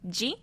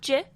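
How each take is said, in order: First: The syllable ends with an 'ee' vowel. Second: The syllable ends without an 'ee' vowel. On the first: The speaker calls it right. "this is pronounced Ji" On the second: The speaker calls it wrong. "not J"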